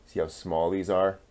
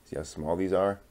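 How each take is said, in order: Both takes have the same delivery.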